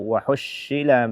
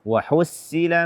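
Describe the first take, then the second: First: The consonant is an sh sound. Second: The consonant is a plain, light s. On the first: "atau shin" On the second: "Mengganti sad dengan sin"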